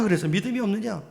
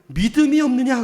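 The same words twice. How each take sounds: First: Said in the usual way. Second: Jesus' rebuke. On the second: Retold or imitated. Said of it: "그다음 뭐라고요?".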